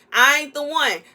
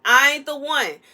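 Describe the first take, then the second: No difference in how they are said.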